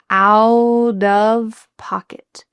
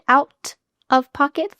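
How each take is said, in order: First: The T in 'out' sounds like a quick D. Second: The T in 'out' is a clear T sound. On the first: The speaker calls it right. "a T between two vowels is going to change to a D sound" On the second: The speaker calls it wrong. "Is it out of pocket? No"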